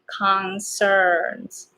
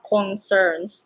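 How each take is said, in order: First: The first vowel sounds like 'ah' in hot. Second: The first vowel sounds like 'oh'. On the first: The speaker calls it right. "it's ka, ah, same as hot" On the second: The speaker calls it wrong. "not o, not concerns"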